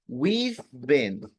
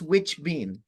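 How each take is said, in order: First: The first word sounds like we've. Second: The first word sounds like which. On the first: The speaker calls it right. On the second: The speaker calls it wrong.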